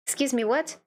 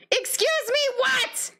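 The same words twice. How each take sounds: First: Said in the usual way. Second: Very high incredulous squeal; shriek-like pitch in mock outrage; hammed-up disbelief. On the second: Player at the top of the endless loop, hammed-up disbelief.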